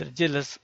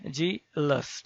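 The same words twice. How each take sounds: First: Said in the usual way. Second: Jealous drawn out in two parts, jea-lous; syllable by syllable. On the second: Shown as a demonstration. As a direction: say jealous as जे, pause, लस. (jealous को दो हिस्सों में तोड़कर: जे-लस) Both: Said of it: "दो syllable बन रहा है".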